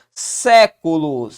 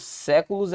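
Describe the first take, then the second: First: "Séculos" very slow, leaning hard on "Sé"; stretched first syllable. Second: Said in the usual way. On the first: Shown as a demonstration. Teacher sounding out "Séculos" for its stress rule, drawn-out. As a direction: punch and hold the "Sé" of "Séculos". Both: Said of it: "Séculos é pró-paroxítona".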